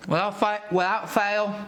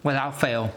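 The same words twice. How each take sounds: First: Put-on a light British accent, pitched up. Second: Said in the usual way. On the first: Tasting food on camera, in a mock British accent. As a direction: slip into a playful British accent. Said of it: "dived into that accent. It's like a British". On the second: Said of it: "I don't know why I dived into that accent".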